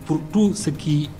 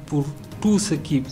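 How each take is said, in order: Both takes have the same delivery.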